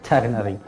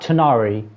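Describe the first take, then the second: First: The middle has a throaty, French-like R sound. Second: The middle has no throaty sound at all. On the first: The speaker calls it right. "like pretend that you're like saying the R in French" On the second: The speaker calls it wrong. "not Tanari. It's like ridiculously wrong"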